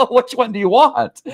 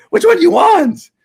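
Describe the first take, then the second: First: Said in the usual way. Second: Much higher and louder, demanding an answer; exasperated yell. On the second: Real, not acted. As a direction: throw the question back at the critics. Repeats the question, then yells it.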